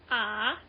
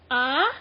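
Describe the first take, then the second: First: The syllable is said with the third-tone pitch. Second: The syllable is said with a questioning, rising pitch. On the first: "that's ah, third sound" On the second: "as in like um like questioning tone, like ah, like what"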